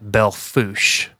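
The name is said with an American pronunciation. "The Americans call it Belle Fourche"

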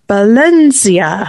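It starts with a b and has a z sound. This is how speakers in Spain say it. "they pronounce it with a B for starters. And then instead of the S sound, it's a Z sound"

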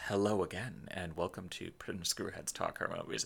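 It is said in a smooth NPR-style voice.

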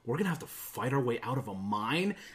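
It sounds upset and sour.

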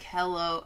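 The greeting sounds low, flat and sad. "You always sound so sad. Like"

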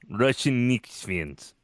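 It is spoken in a put-on Russian accent.

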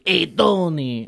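The New York voice is deep and gruff. The speaker calls it wrong. "trying to be all gruff"

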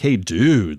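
It sounds exasperated and reproachful. It scolds someone for what they did. "it could have easily been like, hey, dude, like, what the hell did you do that"

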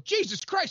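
The name is blurted out as a curse. The name is an exclamation of pain. "one was as a curse"

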